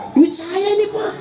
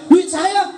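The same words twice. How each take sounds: First: Put-on higher, shouted old father's comeback; old father retorting. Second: Shouted cheeky retort, higher; defiant child. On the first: (bapak tua membalas dengan teriak, nada tinggi) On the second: Retold or imitated. (anak membantah orang tua dengan teriak)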